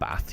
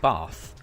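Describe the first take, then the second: First: It is said in a plain, unposh way. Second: It is said in a posh, refined way. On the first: The speaker calls it wrong. "you do not pronounce it Bath" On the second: The speaker calls it right. "That's how it's supposed to be pronounced"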